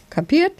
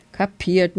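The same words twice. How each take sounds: First: KAPIERT jumping high with a rising end; sharp checking question. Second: "Kapiert" with a falling end, understated; murmured acknowledgement. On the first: Mother badger checks dad understood, "Kapiert?" high and rising. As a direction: punch "Kapiert?" higher as a demanding question. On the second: Dad badger answers his wife, "Kapiert" as a falling, mild murmur. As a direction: give in on "Kapiert", tune dropping. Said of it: "murmelte Papa Dachs". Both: A narrator's reading.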